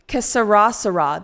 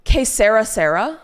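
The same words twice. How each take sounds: First: "Que sera, sera" as kuh suh-RAH suh-RAH, American r; American mispronunciation. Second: QUE SERA, SERA with a light tapped "SEH-ra", stress on SE; trying the pronunciation. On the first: Streamer showing how she botched the quote for Mila, gringo suh-RAH. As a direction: stress the last syllable of each "sera": suh-RAH. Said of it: "That's how I said it". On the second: Streamer recalling how she said the Spanish quote, tentative SEH-ra. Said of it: "Is that how I said it?". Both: Shown as a demonstration.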